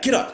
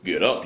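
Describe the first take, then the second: First: It sounds weak, feeble and pouting. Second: It sounds strong, confident and threatening. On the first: The angry man is unsure and thrown off. "It's more of like this angry pouting" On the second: The angry man is sure and threatening. "not like get up, you better get up before I knock you out"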